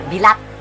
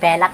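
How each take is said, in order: First: It is said the Bisaya way, with 'bi'. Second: It is said the Tagalog way, with 'be'.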